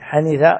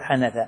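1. الحركة الوسطى هي صوت كسرة. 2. الحركة الوسطى ليست صوت كسرة. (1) "حنيث على وزن علم" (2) "ولا تقول حنث"

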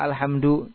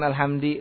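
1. Kata ini berakhir dengan vokal u. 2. Kata ini berakhir dengan vokal selain u. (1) "kenapa dibaca dhamma alhamdu" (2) "ataupun alhamdi"

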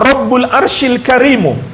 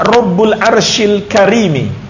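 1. Kata terakhir berakhir dengan vokal u. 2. Kata terakhir berakhir dengan vokal i. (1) "di dhammah Al-Karimu" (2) "Pertama bisa dibaca Rabbul Arshil Karimi ... Jadi lihat di kasrah"

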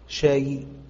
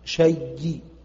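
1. تنتهي بياء خفيفة مع حركة خفيفة. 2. تنتهي بياء مشددة مع حركة خفيفة. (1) "ورو" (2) "ورو"

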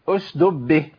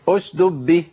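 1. يُحذف صوت الدال الثاني. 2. يُحذف صوت الدال الثاني.

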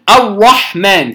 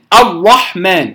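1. الراء شديدة ومستديرة نحو الشفتين. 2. الراء شديدة ومستديرة نحو الشفتين.

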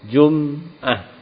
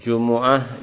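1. Huruf m tidak diikuti vokal. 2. Huruf m diikuti vokal u. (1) "Kadang-kadang mimnya disukun" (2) "Jumu'ah dengan didhammahkan huruf mimnya"

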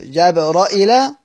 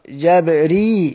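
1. الراء بفتحة، وبعدين همزة. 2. الراء بكسرة، ومفيش همزة. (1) "فيفتح الراء مع همزة" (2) "بكسر الراء"

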